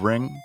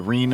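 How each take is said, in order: First: It has a short i vowel and ends in ng. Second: It has a long ee vowel and ends in n. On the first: It is the usual way of saying it. "instead of ring" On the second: It is the regional way of saying it. "Our cousins in Columbus say it"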